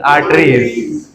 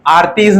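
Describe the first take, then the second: First: It sounds like 'arteries', with a hard t. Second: It sounds like 'aartiz', with no second r. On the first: The speaker calls it right. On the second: The speaker calls it wrong.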